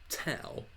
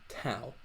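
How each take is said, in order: First: The first consonant has a strong puff of breath. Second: The same.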